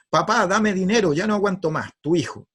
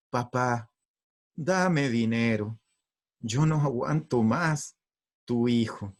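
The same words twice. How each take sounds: First: Brisk, high, demanding read-out; angry letter reading. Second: Tender letter reading. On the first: Father reading son's letter to his wife, angry. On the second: Wife rereading son's letter to father, tender. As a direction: read it gently, lingering on each phrase. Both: Acted. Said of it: "si me lo hubiese pedido así".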